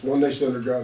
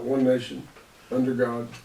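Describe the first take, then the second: First: It is said smoothly without a pause after nation. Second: There is a pause between nation and under.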